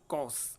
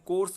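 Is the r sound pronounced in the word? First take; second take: no; yes. First: The word is said without an r sound. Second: The word is said with an r sound. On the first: The speaker calls it right. "र sound जो है वो यहाँ पर silent रहता है" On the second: The speaker calls it wrong. "अपन कोर्स बोलते हैं"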